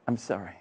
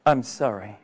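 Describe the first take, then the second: First: Much softer, lower, fading apology; a hushed, heavy-hearted sorry; barely audible sorry. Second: Softer, regretful apology; a mild sad sorry to an old friend; sorrowful refusal. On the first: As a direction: let it die away to almost nothing. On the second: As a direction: say it with quiet regret. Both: Retold or imitated. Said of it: "And what will you tell them?".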